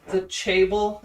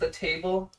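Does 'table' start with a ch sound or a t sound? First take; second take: ch; t. First: The word begins with a ch sound. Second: The word begins with a plain t sound. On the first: "the ch for t sound" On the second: "instead of the table"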